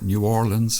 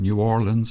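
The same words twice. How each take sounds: First: The name is pronounced the way locals say it. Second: The same.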